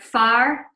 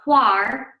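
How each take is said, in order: First: The word begins with an f sound. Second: The word begins with a wh sound. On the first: "northeast, folk would be speaking in the Doric tongue" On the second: "in the south of Scotland, people would say whar"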